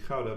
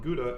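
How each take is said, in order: First: It is pronounced the Dutch way. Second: It is pronounced the North American way.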